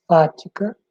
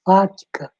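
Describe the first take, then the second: First: "fática" set apart with a rising end; stressed term. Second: Said in the usual way. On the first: Shown as a demonstration. Teacher stressing the term "fática" for students to remember. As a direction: lift "fática" up at the end so it sticks. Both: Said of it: "Lembra bem desse nome".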